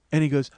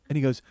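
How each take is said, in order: Both takes have the same delivery.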